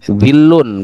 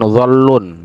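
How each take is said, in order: First: The first vowel is a close 'i' sound. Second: The first vowel is a rounded 'o' sound. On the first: The speaker calls it right. "Zillun bukan zollun ya" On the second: The speaker calls it wrong. "bukan zollun"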